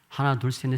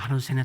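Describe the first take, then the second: First: The numbers are counted at a normal pace. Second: The numbers are counted quickly.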